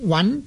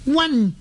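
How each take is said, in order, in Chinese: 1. “温”字读上声。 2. “温”字读平声。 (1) "温就是上声" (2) "温就是平声"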